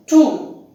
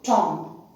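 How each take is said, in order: First: Tomb said "toom", long oo, silent b; correct tomb. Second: Tom, short open o in place of oo; mispronounced tomb. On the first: Teacher giving the correct pronunciation of tomb, correct "toom". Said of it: "the correct pronunciation is tomb". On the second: Teacher warning learners off a wrong reading, mispronounced as Tom. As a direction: say Tom instead of "toom". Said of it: "not Tom". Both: Shown as a demonstration.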